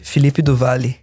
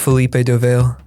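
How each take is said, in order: First: The name is pronounced with Portuguese sounds. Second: The name is pronounced with English sounds. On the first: "In Portuguese" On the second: "the anglicized version of it"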